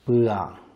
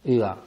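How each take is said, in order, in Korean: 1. 모음은 깁니다. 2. 모음은 짧습니다. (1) "길게" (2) "짧게"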